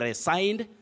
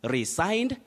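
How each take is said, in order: First: The stressed vowel sounds like 'sign'. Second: The stressed vowel sounds like 'sign'.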